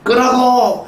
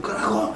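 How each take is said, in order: First: Put-on a full-force high yell at the kids; loud shout. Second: A soft, held-back version of the yell; toned-down shout. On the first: Father yelling at his kids to turn it off, loud shout. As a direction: bark the order at full volume, really loud. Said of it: "큰 소리로". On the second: Shown as a demonstration. Pastor softening the yell for the congregation, quiet mock order. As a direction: say the order quietly so nobody is startled. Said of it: "그렇게 리얼하게 표현 안 했지만".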